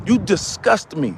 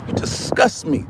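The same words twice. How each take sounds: First: Said in the usual way. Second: Breathy, hissed-out whisper of disgust. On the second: Acted. Ranting man whispers his disgust at listeners. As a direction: spit it out under your breath. Repeated insult, first take.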